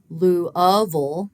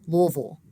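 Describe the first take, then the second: First: The word is said with three syllables. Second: The word is said with two syllables. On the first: "don't just say Louisville with three syllables" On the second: "They actually say Louisville with two"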